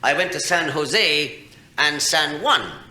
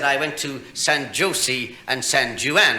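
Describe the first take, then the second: First: The J sound is silent in both names. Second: The J sound is pronounced in both names. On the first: The speaker calls it right. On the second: The speaker calls it wrong.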